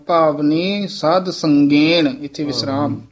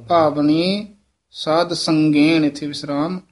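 The two takes are said the same way.

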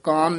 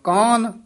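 First: The word is said light, without weight. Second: The word is said slightly heavy. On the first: The speaker calls it wrong. "ਕਾਨ ਨੀ ਕਹਿਣਾ ਹੈ" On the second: The speaker calls it right. "ਕਾਨ ਥੋੜਾ ਜਿਹਾ ਭਾਰਾ ਬੋਲਣਾ"

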